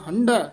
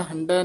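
First: ਹੰਢੈ with tonal ਢ, falling at the end. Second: ਹੰਢੈ with plain ਡ in place of ਢ; mistaken ਹੰਢੈ. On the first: Teacher correcting to ਹੰਢੈ with the ਢ sound. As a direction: give ਹੰਢੈ its ਢ. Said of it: "ਢੱਡੇ ਨਾਲ ਉਚਾਰਨ ਕਰਨਾ". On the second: Teacher showing the mistake, ਹੰਢੈ without its ਢ tone. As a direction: say ਹੰਢੈ as "handai". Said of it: "ਹੰਢੈ ਨਹੀਂ ਕਹਿਣਾ". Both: Shown as a demonstration.

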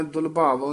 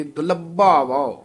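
First: Slack ਦੁਲਭਾਵੋ; wrong reading. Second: ਦੁਲਭਾਵੋ with a firm, tight ਦ; slightly tight. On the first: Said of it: "ਨਹੀਂ". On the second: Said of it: "ਥੋੜਾ ਜਿਹਾ ਕੱਸ ਕੇ". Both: Shown as a demonstration.

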